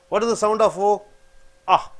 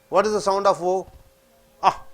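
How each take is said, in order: Both takes have the same delivery.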